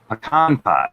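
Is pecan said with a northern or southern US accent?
southern. Pecan is said the southern US way.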